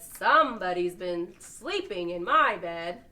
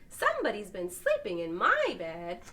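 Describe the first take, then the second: First: It is said in the big papa bear's voice. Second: It is said in the medium-sized mama bear's voice.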